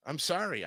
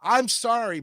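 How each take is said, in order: First: I'm sorry dropped much softer, falling; quiet. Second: Said in the usual way. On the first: Shown as a demonstration. Half-apologizing to viewers about picky friendships, much softer. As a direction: let I'm sorry sink to a soft low aside.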